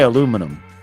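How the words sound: It is said the American way, four syllables.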